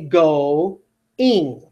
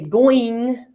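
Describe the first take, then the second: First: The two vowels are kept in separate syllables. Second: The vowels blend into one 'oi' sound. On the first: The speaker calls it right. "I'm actually separating my vowels here" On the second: The speaker calls it wrong. "I don't say going"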